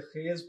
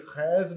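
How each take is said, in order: First: खेज with a pure, closed e vowel; the right खेज, short tight e vowel; correct vowel. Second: खैज with an open ai vowel, as in hay-z but broader; the mistaken खैज, vowel opened to ai; wrong vowel. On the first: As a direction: say खेज with a clean e, not ai. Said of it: "इसे खेज पढ़ना है". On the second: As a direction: say खैज with the wrong, wide ai sound. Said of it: "इसे खैज नहीं पढ़ना". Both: Shown as a demonstration.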